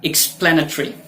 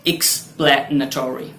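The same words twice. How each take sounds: First: "एक्सप्लेनेटरी" as "ik-SPLAN-uh-tree"; short "-tree" ending on "एक्सप्लेनेटरी"; first pronunciation variant. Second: "एक्सप्लेनेटरी" as "ik-SPLAN-uh-TOR-ee"; full "-tory" ending on "एक्सप्लेनेटरी"; second pronunciation variant. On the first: Teacher giving the first of two options, shortened ending. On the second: Teacher giving the alternative, full ending. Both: Shown as a demonstration. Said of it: "या".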